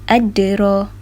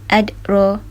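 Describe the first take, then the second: First: The d sound is released with a bouncing echo. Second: The d sound is closed without any echo. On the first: The speaker calls it right. "Kalau kita bunyi melantun" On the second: The speaker calls it wrong. "Kalau tidak melantun, bunyinya seperti adro"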